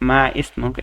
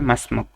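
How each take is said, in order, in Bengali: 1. শব্দ দুটি আলাদা, 'i' উচ্চারিত হয়। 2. শব্দ দুটি একসাথে মিশে যায়, 'i' বাদ পড়ে। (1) "এটা না" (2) "উচ্চারণটা হবে মাসমুক"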